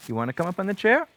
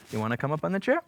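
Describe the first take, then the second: First: Louder, faster, higher urging; bright pushy coax; eager coaxing. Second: Said in the usual way. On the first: Real, not acted. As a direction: hurry the cat up onto the chair. Urging cat to jump up.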